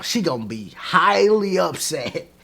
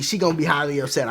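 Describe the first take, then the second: First: "highly" drawn out slowly and leaned on; slow down and hit "highly upset"; slow emphasis. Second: Fast throwaway "she gonna be highly upset"; fast, light restatement of "highly upset"; quick repeat. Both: Shown as a demonstration.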